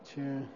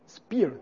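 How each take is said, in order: First: The word begins with a ch sound. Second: The word begins with an sp sound.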